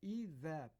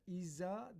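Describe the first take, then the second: First: The z is a lisped, tongue-between-teeth sound. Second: The z is a plain, sharp hissing sound. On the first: The speaker calls it right. "peltek ze" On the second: The speaker calls it wrong. "iza değil"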